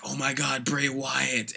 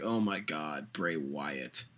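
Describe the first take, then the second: First: Lightly gushing fan voice; a hint of starstruck hype; mock fan excitement. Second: Much lower, softer, fed-up drone; bored groan. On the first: Vlogger imitates fans first hyped about Bray Wyatt, mild mock excitement. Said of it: "Everyone was like". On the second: Retold or imitated. Vlogger imitates fans later tired of Bray Wyatt, low bored drone. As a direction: sigh it out, sick of him. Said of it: "eventually it was like".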